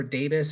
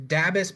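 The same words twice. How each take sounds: First: "dabus" with a long a, as in day; long-a pronunciation. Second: "dabus" with a short a, as in dab; short-a pronunciation. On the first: Host offering another reading of the AI's name, "dabus" said DAY-bus. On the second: Host offering one reading of the AI's name, "dabus" said DAB-us. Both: Shown as a demonstration. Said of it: "however you wanna pronounce it".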